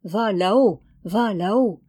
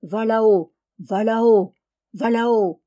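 First: Mill voice. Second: Louder rhythmic chant of a mill wheel; louder mechanical chant of a mill. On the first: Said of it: "son moulin voulait dire". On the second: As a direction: drone it like a turning millwheel. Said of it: "Son moulin disait". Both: A narrator's reading.

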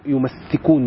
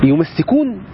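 First: يمسكون said as yumsikūn, short single s; يمسكون with a plain short s, yum-si-kūn; يمسكون pronounced yumsikūn, the undoubled form. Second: يمسكون said as yumassikūn with a doubled, stressed s; يمسكون with a long, stressed ss, yu-mas-si-kūn; يمسكون pronounced yumassikūn, the doubled form. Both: Shown as a demonstration. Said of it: "يمسكون مش يمسكون".

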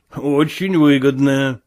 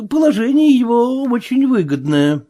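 First: Said in the usual way. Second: High-pitched character voice for Marvel; hesitant Marvel. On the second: A narrator's reading. Marvel agreeing with the sailor, hesitant and high. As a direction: agree in a raised, careful voice.

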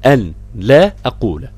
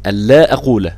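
First: "أن لا أقول" split word by word; separated as written. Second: Said in the usual way. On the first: Shown as a demonstration. Teacher showing the written form, "أن لا أقول" in separate words. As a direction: say "أن لا أقول" with أن and لا apart. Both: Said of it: "مكتوبة في المصحف بنفس الطريقة".

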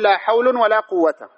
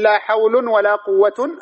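First: "حول" ending in -un, "قوة" in -a; drawn out, nunated damma on "حول", fatha on "قوة"; tanwin then fatha. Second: "حول" and "قوة" both ending in -un; drawn-out nunated damma on "حول" and "قوة"; both tanwin. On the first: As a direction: say hawlun for "حول", quwwata for "قوة", slowly. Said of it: "أو نقول". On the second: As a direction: say hawlun for "حول", quwwatun for "قوة", slowly. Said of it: "أهملناهما معًا". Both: Shown as a demonstration.

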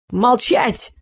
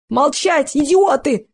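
First: Короткий визгливый окрик; взвизгнуть на одном слове; visceral shriek. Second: Выше и громче, срываясь на крик; заорать на всех: «Молчать, идиоты!». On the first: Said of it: "взвизгнул Эл". (визгливо, резко: «Молчать!») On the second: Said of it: "вскричал Эл". (истеричный крик главаря) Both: A narrator's reading.

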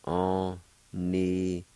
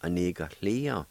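First: Onigolia drawn out slowly; slow model word. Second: Said in the usual way. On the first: Shown as a demonstration. Teacher slowly modelling the word for learners.

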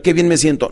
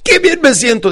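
First: Said in the usual way. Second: High, loud exclamation; enthusiastic. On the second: Shown as a demonstration. Coach telling client what to say, enthusiastic. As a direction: proclaim it brightly as a model. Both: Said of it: "pero con entusiasmo".

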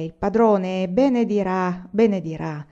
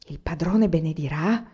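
First: Slow, firm statement, benedirà falling; firm assurance. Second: Benedirà asked with a rise on padrone; young man repeating the promise in wonder; wondering question. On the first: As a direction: lay down benedirà as certain. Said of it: "ho già pesato le mie parole". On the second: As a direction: turn it over in disbelief. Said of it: "Se il contadino parlava così". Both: A narrator's reading.

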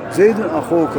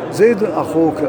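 The two takes are said the same way.

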